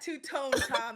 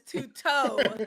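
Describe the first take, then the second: First: The second word ends with an n sound. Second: The second word ends without an n sound. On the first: The speaker calls it wrong. "He keeps saying the name wrong" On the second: The speaker calls it right. "It's two toe"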